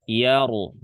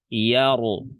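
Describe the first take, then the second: First: The r is heavy, with a full vowel. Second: The r is heavy, with a full vowel.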